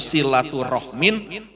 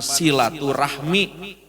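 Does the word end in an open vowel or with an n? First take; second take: n; open vowel. First: The word ends with an n sound. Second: The word ends in an open vowel. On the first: This is the original source-language form. "Padahal kan bahasa Arabnya itu" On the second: This is the borrowed everyday form. "ungkapan silaturahmi"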